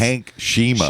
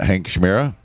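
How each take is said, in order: First: The surname is said as two syllables, 'Shima'. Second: The surname is said with an m-r sound, 'Shmera'. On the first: The speaker calls it right. "it's Shima, actually" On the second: The speaker calls it wrong. "I say it wrong"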